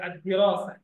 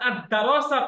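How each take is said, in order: First: The vowel after the second d is 'i'. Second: The vowel after the second d is 'a'. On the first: The speaker calls it right. "এখানে একটা শব্দ আছে আদ-দিরাসা" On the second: The speaker calls it wrong. "আপনি যদি এই শব্দটা আদ-দারাসা করেন"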